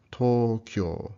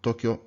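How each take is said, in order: First: "Tokyo" slow with both o's held long; long vowels. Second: Said in the usual way. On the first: Shown as a demonstration. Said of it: "Should sound like". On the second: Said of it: "not Tokyo".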